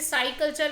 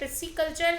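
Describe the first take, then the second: First: The first syllable sounds like 'sai'. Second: The first syllable sounds like 'pis'. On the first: "कुछ लोग इसे साई कल्चर भी कहते हैं" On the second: "बट ये पिसिकल्चर है"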